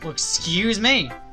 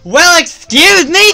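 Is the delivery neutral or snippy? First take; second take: neutral; snippy. First: It is said in a plain, neutral tone. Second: It is said in a snippy, bitchy tone. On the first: The speaker calls it wrong. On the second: The speaker calls it right.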